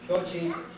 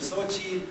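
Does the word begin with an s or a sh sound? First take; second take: sh; s. First: The word begins with a sh sound. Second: The word begins with an s sound. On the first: This is the Nahuatl pronunciation. "In Nahuatl, it would be Sho, Shochi" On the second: This is the Hispanicized pronunciation. "then Hispanicized to either Sochi or Suchi"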